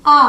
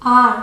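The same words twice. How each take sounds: First: आ stretched long with no r; British are. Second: आर with a clear r at the end; American are. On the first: Teacher demonstrating British are to students. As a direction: draw out आ and drop the r. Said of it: "आ को थोड़ा खींच के बोलेंगे आ". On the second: Teacher demonstrating American are to students. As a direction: sound the r fully in आर. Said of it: "American English में र properly pronounce". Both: Shown as a demonstration.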